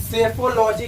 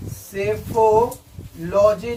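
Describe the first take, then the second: First: Said in the usual way. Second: psephology drawn out in parts; psephology spaced out for learners; slow repeat. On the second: Shown as a demonstration. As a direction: say psephology slowly, part by part. Repeats answer slowly for learners.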